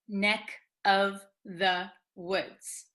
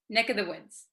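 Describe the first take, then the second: First: The phrase is said very slowly. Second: The phrase is said very quickly. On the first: "if we speak very, very slowly" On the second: "But if you say it very quickly"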